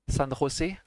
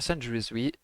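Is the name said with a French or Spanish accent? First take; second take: Spanish; French. First: The name is said with a Spanish accent. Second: The name is said with a French accent. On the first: The speaker calls it right. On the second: The speaker calls it wrong.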